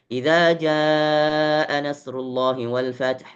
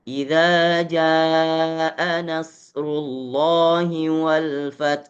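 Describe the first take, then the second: First: The phrase is recited quickly with shorter vowels. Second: The phrase is recited slowly with long vowels. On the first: "Naik satu tempo lagi lebih cepat, hadar" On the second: "kalau membaca lambat tahqiq"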